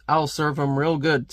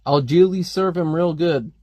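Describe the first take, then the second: First: I'LL in place of Algili, said as the plain word; guessed intended wording. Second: ALGILI read as one odd word, al-JEE-lee; literal sound-out. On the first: Reader decoding the comic's dialect, guessed intended wording. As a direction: say I'll as an ordinary contraction. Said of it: "a guttural New York utterance". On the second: Reader puzzling over a misspelt word, literal sound-out. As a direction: sound out Algili just as spelled. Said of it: "no idea what that word". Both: Shown as a demonstration.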